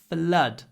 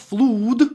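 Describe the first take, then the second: First: The vowel rhymes with blood. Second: The vowel does not rhyme with blood. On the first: The speaker calls it right. "it's flood. ... flood and blood" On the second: The speaker calls it wrong. "It's not flood"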